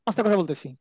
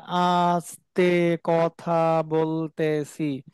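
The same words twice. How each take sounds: First: Fast, rattled-off demo; fast contrasting take of আস্তে কথা বলতেছি; quick speech. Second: Very slow, each syllable stretched out; slow-motion demo of আস্তে কথা বলতেছি; slow motion speech. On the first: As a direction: rush the words out quickly. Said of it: "আর আমি যদি বলি". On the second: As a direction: drag the words out like a slowed-down recording. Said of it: "মনে করেন slow মোশনে". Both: Shown as a demonstration.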